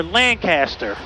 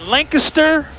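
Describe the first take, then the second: First: Lancaster as LAN-CASS-ter, full middle vowel; second pronunciation variant. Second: Lancaster as LANK-uh-ster, middle syllable reduced; first pronunciation variant. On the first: Pilot offering viewers the other option, Lancaster as LAN-CASS-ter. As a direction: say Lancaster with a clear CAST in it. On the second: Pilot asking viewers which is correct, Lancaster as LANK-uh-ster. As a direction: say Lancaster run together, LANK-iss-ter. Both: Shown as a demonstration. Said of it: "What is the correct pronunciation?".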